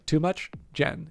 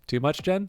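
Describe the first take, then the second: First: The question rises on much, then Jen follows separately. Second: Jen is joined to the question, rising at the end.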